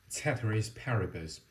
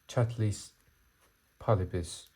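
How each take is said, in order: First: The phrase is pronounced the English way. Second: The phrase is pronounced the Latin way. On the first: "Or in English pronunciation" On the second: "it's in Latin"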